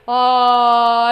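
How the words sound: It is low and resonant in chest voice. "Big old chest voice"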